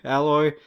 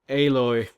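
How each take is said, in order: First: The name sounds like the common word alloy. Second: The name does not sound like the word alloy. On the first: The speaker calls it wrong. "Sounds like Alloy" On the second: The speaker calls it right. "But I think it's actually pronounced Aloy"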